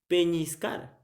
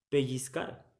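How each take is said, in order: First: The middle consonant is an ñ sound. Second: The middle consonant is an ll sound. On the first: The speaker calls it wrong. "ustedes, no sé, dirán, por ejemplo, peñiscar con ñ" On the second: The speaker calls it right. "Pero la correcta pronunciación, ¿cuál es? Pellizcar con ella"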